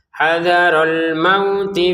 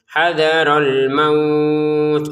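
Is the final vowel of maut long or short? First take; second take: short; long. First: The vowel in maut is short. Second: The vowel in maut is stretched long. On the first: The reciter continues into the next word. "Kalau disambung nggak ada panjang sama sekali" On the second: The reciter stops after this word. "karena kita berhenti dipanjangkan enam harokat"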